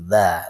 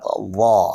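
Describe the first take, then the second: First: The consonant sounds thin, without tongue raising. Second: The consonant sounds thick, with the tongue raised. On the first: "Kalau tidak terangkat lidahnya dha jadi dha" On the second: "tapi kalau terangkat dha"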